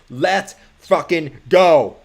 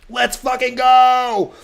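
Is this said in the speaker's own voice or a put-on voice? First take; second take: own; put-on. First: It is read in the speaker's own voice. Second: It is said in an imitated, annoying voice.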